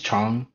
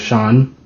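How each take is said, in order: First: It begins with a 'ch' sound. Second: It begins with an 'sh' sound. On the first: The speaker calls it right. "it's Chang, like a C H" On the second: The speaker calls it wrong. "not a Shan, not a S H"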